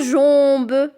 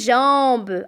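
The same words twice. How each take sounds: First: The nasal vowel is said closed. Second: The nasal vowel is said open. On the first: The speaker calls it wrong. "je ne dis pas jambe" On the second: The speaker calls it right. "j'entends le en ouvert et non pas le en fermé"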